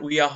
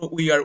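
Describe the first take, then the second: First: The words are merged into one short syllable. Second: Both words are said separately in full.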